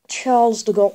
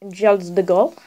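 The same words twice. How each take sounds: First: It is said in a plain English accent. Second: It is said in a put-on French accent.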